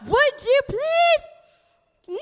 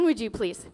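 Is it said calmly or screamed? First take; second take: screamed; calmly. First: It is screamed loudly and angrily. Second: It is said calmly and nicely.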